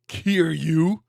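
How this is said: The name is said with an American pronunciation. The speaker calls it wrong. "the American voice acting saying it like that"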